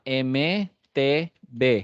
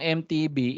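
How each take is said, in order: First: The letters are named as in Spanish. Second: The letters are named as in English. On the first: The speaker calls it right. "you have to do that in Spanish" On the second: The speaker calls it wrong. "English yan"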